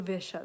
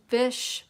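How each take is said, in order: First: Visha said with a final a sound, as VEE-sha; first try at the name, read as Visha; name misread. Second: Vish said short and clipped, no final vowel; name corrected. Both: Shown as a demonstration. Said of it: "That's Vish, Vish Matthew".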